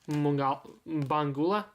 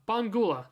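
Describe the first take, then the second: First: The name starts with an m sound. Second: The name starts with a b sound.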